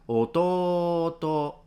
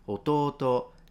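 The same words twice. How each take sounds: First: The long vowel is stretched out far too long. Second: The long vowel is held a moderate length. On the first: The speaker calls it wrong. "They don't say ototo. It's exaggerated" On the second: The speaker calls it right. "they do say ototo"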